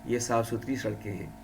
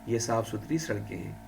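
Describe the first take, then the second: Both takes have the same delivery.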